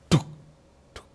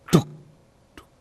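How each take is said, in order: Both takes have the same delivery.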